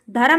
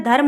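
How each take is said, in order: First: धर्म in two syllables, "dha-ram"; wrong pronunciation. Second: Said in the usual way. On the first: Shown as a demonstration. Teacher shows the misspelling, said "dharam". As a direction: add a vowel between r and m in धर्म. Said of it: "धर्म नहीं होता है". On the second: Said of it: "धर्म होता है".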